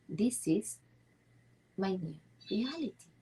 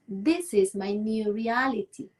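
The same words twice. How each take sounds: First: It is said more quietly. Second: It is said very loudly.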